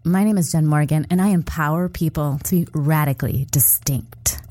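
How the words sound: It is said in a condescending, superior tone. The speaker thinks they are better than the listener. "I'm gonna do it in a condescending tone"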